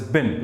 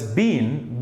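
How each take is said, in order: First: The word has a short i vowel. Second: The word has a long ee vowel. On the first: The speaker calls it right. "is pronounced as been, like dustbin" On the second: The speaker calls it wrong. "B E E N is not pronounced as been"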